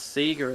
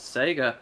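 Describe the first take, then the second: First: It is said the Australian way. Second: It is said the American way. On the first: "they pronounce Sega" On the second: "in America, they pronounce Sega as Sega"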